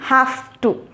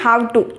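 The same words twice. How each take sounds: First: 'Have' ends with a voiceless F sound. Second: 'Have' ends with a voiced V sound. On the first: The speaker calls it right. "ఇది హ్యావ్ టు, హెచ్ఏఎఫ్ T O టూ" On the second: The speaker calls it wrong. "I'm not saying హ్యావ్ టు"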